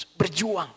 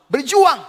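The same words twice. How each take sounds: First: Said in the usual way. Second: Berjuang shouted high and loud; loud climax. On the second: Acted. Preacher crying out to the congregation, loud. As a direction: hit berjuang hard as the peak.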